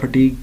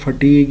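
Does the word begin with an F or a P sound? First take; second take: P; F. First: The word begins with a P sound. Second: The word begins with an F sound.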